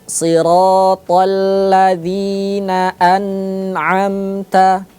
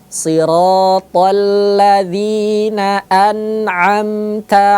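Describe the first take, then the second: First: The n is held with a nasal hum. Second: The n is released clearly and smoothly. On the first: The speaker calls it wrong. "tidak boleh dibaca dengung" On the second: The speaker calls it right. "Bagaimana cara baca yang benar"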